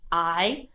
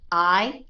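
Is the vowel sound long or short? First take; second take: long; long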